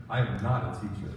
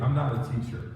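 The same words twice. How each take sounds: First: "I am not a teacher" with am spelled out and leaned on, dropping low; stress on am. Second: Said in the usual way. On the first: Shown as a demonstration.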